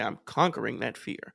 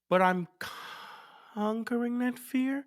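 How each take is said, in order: First: It is said boldly and fearlessly, with conviction. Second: It is said hesitantly, with confidence draining away. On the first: The speaker fully believes the claim. "I was about to say it fearlessly" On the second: The speaker doubts the claim. "did you hear all the confidence leave my voices?"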